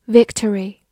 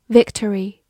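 Both takes have the same delivery.

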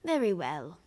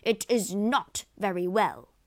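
First: Mildly weary acceptance; resigned sigh. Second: Loud, outraged howl; howling protest. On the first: Lago placates angry Rodrigo, mild resigned sigh. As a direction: give in with a slight sigh. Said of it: "sighed Lago". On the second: Rodrigo contradicts Lago, loud howling protest. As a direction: howl the contradiction back loudly. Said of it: "howled Rodrigo". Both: A narrator's reading.

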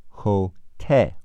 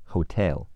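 First: "Hotel" slowly split, weight on "tel"; stress on second syllable. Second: Said in the usual way. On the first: Shown as a demonstration. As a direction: stretch "Hotel" as ho-TE-l. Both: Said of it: "重音在te".

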